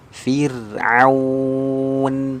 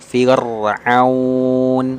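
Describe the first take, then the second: First: The r is pronounced thin and light. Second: The r is pronounced thick and heavy. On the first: The speaker calls it right. "Dibaca tipis" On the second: The speaker calls it wrong. "jangan dibaca"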